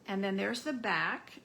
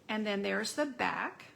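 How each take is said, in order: Both takes have the same delivery.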